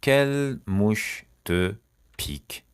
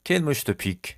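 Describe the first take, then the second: First: "Quelle mouche te", pause, "pique", very slowly; slow word by word. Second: Said in the usual way. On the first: Shown as a demonstration. Teacher showing learners an idiom, slowly word by word.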